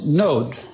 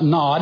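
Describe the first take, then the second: First: The vowel is a long O sound. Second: The vowel is a short O sound. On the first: The speaker calls it right. "It's pronounced long O" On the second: The speaker calls it wrong. "it's not Nod"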